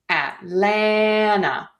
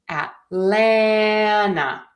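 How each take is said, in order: No difference in how they are said.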